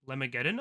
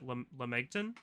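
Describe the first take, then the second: First: The name ends with a longer 'geddon' sound. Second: The name ends with a short 'gton' sound. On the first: The speaker calls it right. "They call it Lemageddon" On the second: The speaker calls it wrong. "I used to pronounce it Lemegton, but I don't think that's how you say it"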